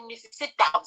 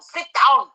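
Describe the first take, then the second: First: Said in the usual way. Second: Imitated judge ordering. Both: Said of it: "The way he sits everyone down to say".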